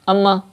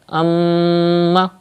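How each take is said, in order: First: The nasal m sound is cut short. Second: The nasal m sound is held long. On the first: The speaker calls it wrong. "that's not correct. That means you are not doing gunna" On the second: The speaker calls it right. "So do gunna, keep the sound into the nose up to one alif, like that"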